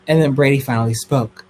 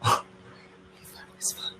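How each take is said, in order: First: Said in the usual way. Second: Slow breathless whisper after a gasp; dramatic whisper. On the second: A narrator's reading. Telling viewers Brady finally spoke, slow dramatic whisper. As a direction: hush it like a juicy secret.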